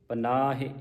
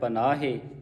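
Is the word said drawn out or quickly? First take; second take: quickly; drawn out. First: The word is said quickly with a short ending. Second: The word is drawn out with a long ending. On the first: The final letter keeps its short vowel. The speaker calls it right. "ਇਹਨੂੰ ਪੜ੍ਹਨਾ ਹੈ ਜਲਦੀ ਦੇ ਨਾਲ" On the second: The final letter is read as if it had a long vowel. The speaker calls it wrong. "ਜੇ ਆਪਾਂ ਇਹਨੂੰ ਲੰਮਾ ਕਰਦੇ ਹਾਂ"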